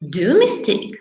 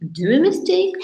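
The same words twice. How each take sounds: First: The voice falls like a plain statement. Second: The voice rises like a question. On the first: The student states the phrase. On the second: The teacher hints that the phrase needs correcting.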